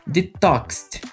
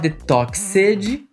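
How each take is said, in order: First: The ending is pronounced as a plain 't' sound. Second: The ending is pronounced as a full 'ed' syllable. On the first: The speaker calls it right. "pronuncia com som de T" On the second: The speaker calls it wrong. "Não se fala detoxed"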